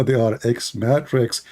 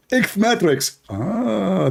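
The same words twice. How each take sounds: First: Said in the usual way. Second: High squeaky repeat; lampooned rival insisting on his term; mock debater. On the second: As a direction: squeak the word out much higher.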